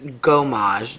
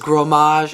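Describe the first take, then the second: First: No R sound follows the first consonant. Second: An R sound follows the first consonant. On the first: The speaker calls it right. "It's Gomage, no R" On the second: The speaker calls it wrong. "I was pronouncing this as Gromage"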